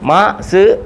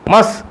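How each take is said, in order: First: The syllables are said slowly and apart. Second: The syllables are said quickly and joined. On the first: "ഇനി മാ സ് എന്ന് വായിക്കത്തില്ല" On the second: "speed വായിക്കണം"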